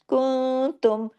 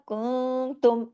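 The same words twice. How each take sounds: No difference in how they are said.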